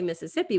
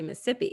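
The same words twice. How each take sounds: First: All syllables of the word are pronounced. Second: A middle syllable of the word is dropped. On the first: The speaker calls it wrong. "we don't say Mississippi" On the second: The speaker calls it right. "If it's a really long word, you shorten it by a syllable or two"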